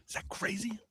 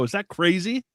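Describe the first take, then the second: First: Unvoiced stage whisper. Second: Said in the usual way. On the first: Shown as a demonstration. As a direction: whisper it like a secret. Repeated, second time whispered.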